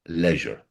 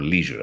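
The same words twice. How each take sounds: First: It is said with a British accent. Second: It is said with an American accent.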